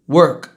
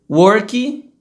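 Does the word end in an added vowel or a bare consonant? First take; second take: bare consonant; added vowel. First: The word ends cleanly on the final consonant. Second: An extra vowel sound follows the final consonant. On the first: The speaker calls it right. "depois eu vou falar como se é de verdade" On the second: The speaker calls it wrong. "Primeiro eu vou falar como brasileiro falaria"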